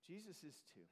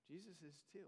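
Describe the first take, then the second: First: Soft emphasis. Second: Soft echo. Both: Real, not acted.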